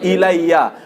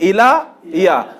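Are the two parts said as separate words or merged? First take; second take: merged; separate. First: The two words are merged into one, ilayya. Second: The two words are said separately, unmerged. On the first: This form is easier to pronounce. "পড়তে কষ্টের জন্য আল্লাহ এটাকে বানায় দিলেন কি ইলা ইয়া" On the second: This is the underlying form of the words. "তাইলে এর সাথে ইলা ইয়া হতে হবে"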